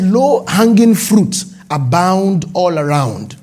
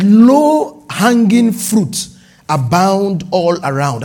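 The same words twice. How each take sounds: First: Slow deliberate reading. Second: Solemn slow reading. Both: Shown as a demonstration. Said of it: "I'm reading now, just as God ... spoke to me".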